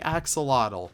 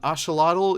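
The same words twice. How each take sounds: First: It is pronounced the common English way. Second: It is pronounced the native Nahuatl way. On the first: The speaker calls it wrong. "many people actually say axolotl" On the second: The speaker calls it right. "kind of like the native Nautical language, I think it is, um, way of pronouncing it"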